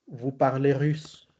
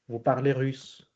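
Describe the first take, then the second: No difference in how they are said.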